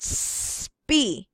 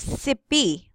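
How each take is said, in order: First: The s runs straight into the p. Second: A vowel is inserted between the s and p. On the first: The speaker calls it right. "the sound of the S only" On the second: The speaker calls it wrong. "you will not say sipi"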